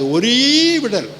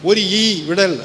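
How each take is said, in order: First: The vowel is joined and stretched out long. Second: The vowel is split off as a separate word. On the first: The speaker calls it right. "நெடில் போட்டு ... நல்லா நீட்டி முழக்கணும்" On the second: The speaker calls it wrong. "வாசிக்கக்கூடாது"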